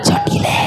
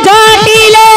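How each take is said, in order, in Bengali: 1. নামটা আস্তে ডাকা হচ্ছে। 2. নামটা জোরে ডাকা হচ্ছে। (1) "আস্তে করে ডাকো" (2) "জোর করে ডাকো"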